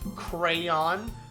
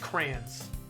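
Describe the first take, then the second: First: The word is said with two full syllables. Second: The word is squeezed into one short syllable. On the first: "the full crayon" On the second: "just crayons"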